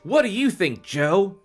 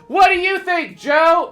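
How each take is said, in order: First: It is said at normal volume. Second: It is shouted over motorcycle noise.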